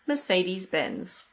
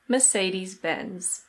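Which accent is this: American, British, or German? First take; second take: British; British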